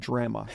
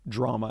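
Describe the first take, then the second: First: The first vowel sounds like in 'Dramamine'. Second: The word is pronounced in the usual way. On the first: The speaker calls it wrong. "mispronounce the word drama and call it drama" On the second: The speaker calls it right. "the word drama"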